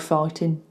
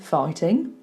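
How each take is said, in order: First: The final G sound is dropped. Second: The final G sound is pronounced. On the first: "it's a bit more common to hear in Birmingham" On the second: "he's gone for the G"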